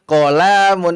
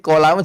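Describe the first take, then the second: First: A vowel in the word is drawn out long. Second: All the vowels in the word are short. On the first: The speaker calls it wrong. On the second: The speaker calls it right.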